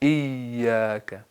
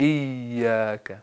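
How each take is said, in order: First: The middle consonant is a soft y. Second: The middle consonant is a soft y.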